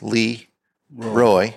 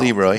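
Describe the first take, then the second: First: The name is split into two separate words. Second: The name runs together as one word. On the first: The speaker calls it right. "It's two words" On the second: The speaker calls it wrong. "It's not Leroy"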